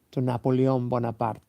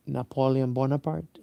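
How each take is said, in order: First: Napoleon Bonaparte said the Spanish way, na-po-le-ON bo-na-PAR-te. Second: Napoleon Bonaparte said the English way, na-PO-lee-un BO-na-part. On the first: Speaker names Napoleon Bonaparte first in Spanish pronunciation. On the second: Speaker tries the English pronunciation of Napoleon Bonaparte. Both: Shown as a demonstration. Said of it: "I think you say".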